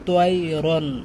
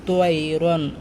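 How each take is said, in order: Both takes have the same delivery.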